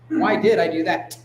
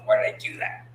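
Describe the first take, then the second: First: It sounds firm, with a hard final T. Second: It sounds groaning and self-critical. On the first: The speaker insists on finding an answer. The speaker calls it right. "huh, ... The hard semblance on the T" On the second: The speaker is beating themselves up. The speaker calls it wrong.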